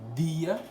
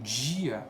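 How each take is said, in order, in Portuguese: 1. A palavra começa com um som de d simples. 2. A palavra começa com um som de dj chiado. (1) "dia é o D normal" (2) "o dia, mais comum aqui no Sul, se coloca esse D J"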